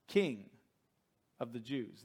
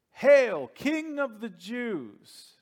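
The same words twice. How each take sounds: First: Said in the usual way. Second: Loud, higher, slow mocking salute; mocking hail. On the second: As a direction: sneer it out like a jeering soldier. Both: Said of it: "This is what the Roman guards were calling him".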